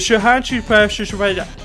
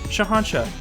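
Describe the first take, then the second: First: The name is said with extra sounds added. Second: The name is said plainly, sounded out as spelled. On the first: The speaker calls it wrong. "you're adding in extra letters that don't even exist" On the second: The speaker calls it right. "It's just Shahanshah"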